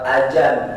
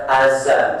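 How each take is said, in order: First: The middle consonant is a j sound. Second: The middle consonant is a z sound. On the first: This is how Betawi people say it. "Orang Betawi bilang suara ajan" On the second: This is how Jakarta people say it. "Orang Jakarta bilang azan"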